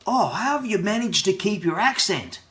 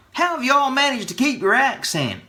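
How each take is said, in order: First: Higher-pitched wondering question; lightly put-on voice of an impressed questioner; imitated curious asker. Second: Much higher, put-on mimicking voice; over-the-top impersonation of an amazed questioner; exaggerated curious asker. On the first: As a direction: mimic an amazed stranger asking, pitched up. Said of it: "somebody will come up to me and ask me". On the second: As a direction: ham up the stranger's question, pitched way up. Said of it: "Or more like".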